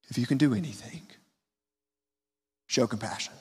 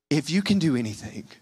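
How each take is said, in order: First: Softer, fading, weak voice; quiet, almost disappointed plea; weak desperate plea. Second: A weak, desperate father's plea; a hint of disappointment in a weak plea. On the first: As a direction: plead softly like a worn-out father. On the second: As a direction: let the words sag with desperation. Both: Shown as a demonstration. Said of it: "Do you feel the weakness in that voice?".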